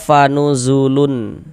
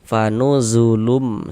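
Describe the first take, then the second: First: The word ends with a clear n sound. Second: The word ends with a nasal m sound. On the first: The speaker calls it wrong. "Jangan dibaca fanuzulun" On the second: The speaker calls it right. "bunyi tanwin masukkan ke huruf mim"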